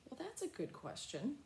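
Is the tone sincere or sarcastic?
sincere. It sounds warm and sincere. The question is genuinely appreciated. "maybe your child asks a question and you say"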